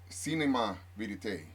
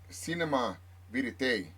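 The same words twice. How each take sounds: First: It is pronounced with a Spanish accent. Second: It is pronounced with an English accent.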